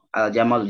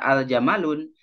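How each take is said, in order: First: The word ends in a plain vowel, no n. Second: The word ends with a final n sound. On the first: The speaker calls it right. "tanwinnya jadi hilang" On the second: The speaker calls it wrong. "Jangan dibaca al jamalun"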